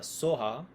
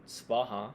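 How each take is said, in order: First: The first syllable is so, without a v. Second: The first syllable is sva, with a v. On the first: This is the Tibetan way of saying it. "as it's pronounced in Tibetan by Tibetans" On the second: This is the Indian way of saying it. "in a more Indian way"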